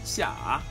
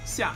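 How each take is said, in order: First: The pitch dips low then rises. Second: The pitch falls sharply from high.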